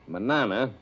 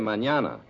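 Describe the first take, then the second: First: The middle consonant is a plain n. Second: The middle consonant is an ny sound. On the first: The speaker calls it wrong. "Instead of saying manana" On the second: The speaker calls it right. "you should say mañana"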